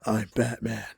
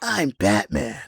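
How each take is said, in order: First: Low, hushed superhero voice; quiet, lowered vigilante impression; Batman as imagined. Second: Mocking a wrong-sounding superhero voice, drawn out; Lego Batman actor. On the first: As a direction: say it low and understated, like a dark hero. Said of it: "when I think Batman, I think". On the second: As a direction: stretch the words slowly in a put-on hero voice. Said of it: "He has too high pitched of a voice".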